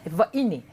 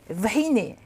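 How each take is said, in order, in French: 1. Le son h au milieu ne se prononce pas. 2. Le son h au milieu se prononce. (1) "on dira vaine" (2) "le H ne se dit pas"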